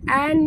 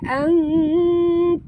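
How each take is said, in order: First: The nun is pronounced clearly and fully. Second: The nun is hidden in a nasal hum. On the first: The speaker calls it wrong. "bukan an ya. Kalau an tu jelas sangat bunyi nun" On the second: The speaker calls it right. "sini bunyi dia ang kuntum"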